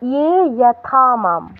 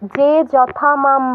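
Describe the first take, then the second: First: The first word begins with a 'y' sound. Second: The first word begins with a 'j' sound. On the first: The speaker calls it right. "কি বলবেন ইয়ে" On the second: The speaker calls it wrong. "বলবেন না"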